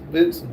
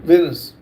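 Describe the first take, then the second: First: "Vincent" with an N before the S and a final N; mispronounced Venice. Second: "Venice" as VEN-iss, ending in an S sound; corrected pronunciation. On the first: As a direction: stumble on Venice, saying it as "Vincent.". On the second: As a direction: say "Venice" with no N before the final S. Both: Real, not acted. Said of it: "how you say it?".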